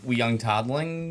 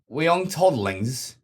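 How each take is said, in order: First: It is said in the speaker's normal accent. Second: It is said in a put-on British accent. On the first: The speaker calls it wrong. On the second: The speaker calls it right.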